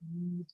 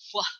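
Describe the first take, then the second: First: The w sound is plain, without extra breath. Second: The w sound has a breathy puff of air. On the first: The speaker calls it right. "it's just plain old w" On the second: The speaker calls it wrong. "We no longer say wh"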